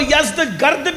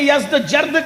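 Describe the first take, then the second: First: The second part starts with a hard g sound. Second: The second part starts with a j sound. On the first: This is how Iranians say the name. "ईरानी लबो लहजे में" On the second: This is how Arabic speakers say the name. "अरबी में"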